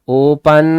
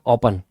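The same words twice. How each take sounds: First: The stress is on the second syllable. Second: The stress is on the first syllable. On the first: The speaker calls it wrong. "पन, ओपन, ऐसा कहते हैं क्या? नहीं कहते" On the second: The speaker calls it right. "ऐसे लिखेंगे ओपन"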